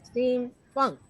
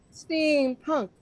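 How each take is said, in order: First: "steampunk" pronounced steam-FUNK; F sound in steampunk. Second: Said in the usual way. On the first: Real, not acted. Lists steamfunk beside steampunk.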